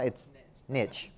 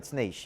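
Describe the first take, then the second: First: It is said the way people say it in Alabama. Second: It is said the way people say it in Hollywood. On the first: "If I'm in Alabama" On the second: "If I'm in Hollywood"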